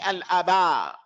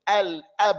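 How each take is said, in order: First: A vowel sound is added after the b. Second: The b ends the word with no vowel after. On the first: The speaker calls it wrong. "I'm not going to say al aba" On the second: The speaker calls it right. "We're just going to merely separate between them"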